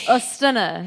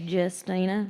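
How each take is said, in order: First: The name is said the Polish way. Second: The name is said the American way. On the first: This is the name's original pronunciation. "Ostina is how you pronounce it" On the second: This is how Americans tend to say it. "us Americans like to say Justina"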